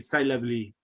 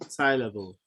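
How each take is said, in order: First: The final e is sounded as 'ee'. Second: The final e is silent. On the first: The speaker calls it wrong. "We don't say syllably" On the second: The speaker calls it right. "This is not sounding. This is mute"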